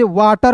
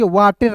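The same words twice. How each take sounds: First: वाटर ending in a neutral "tar"; correct pronunciation. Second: वाटर misread with "ter", an "ay" vowel; wrong pronunciation. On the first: Teacher giving learners the reading of WATER, correct pronunciation. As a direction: say वाटर as "waa-tar", silent E. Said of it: "तो इसे वाटर पढ़ेंगे". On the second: Teacher warning learners off a misreading, wrong pronunciation. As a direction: say वाटर as "waa-tayr", sounding the E. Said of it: "वाटर नहीं पढ़ेंगे". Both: Shown as a demonstration.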